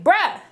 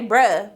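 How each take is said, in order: First: Exasperated bruh. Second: Said in the usual way. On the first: Retold or imitated. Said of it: "goes to Winston like". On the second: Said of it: "He didn't say".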